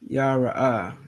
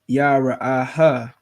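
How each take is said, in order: First: The final 'ha' is not pronounced separately. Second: The final 'ha' is pronounced as a separate syllable. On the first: "That sounds correct" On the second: "Technically, that it's supposed to be pronounced separately"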